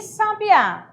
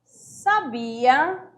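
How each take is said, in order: First: Sabiá with the final Á punched high and drawn out slowly; stress on the last syllable. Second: Sabia said with the middle syllable BI leaned on; sa-BI-a, the second syllable weighted and the end rising; stress on the middle syllable. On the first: Teacher showing students the oxytone sabiá, slow and stressed at the end. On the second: Teacher contrasting the verb sabia for students, stress on BI. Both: Shown as a demonstration. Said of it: "Aqui eu tenho sábia, sabia e sabiá".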